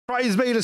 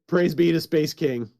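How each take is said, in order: First: The voice sounds electronically altered by processing. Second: The voice sounds natural and unprocessed.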